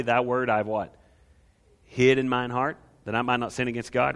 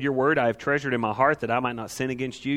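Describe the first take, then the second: First: Recited the way it was learned; old King James wording. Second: Said in the usual way. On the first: Shown as a demonstration. Preacher reciting the childhood version of the verse. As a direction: rattle off the memorized old version. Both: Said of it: "You probably learned it the other way".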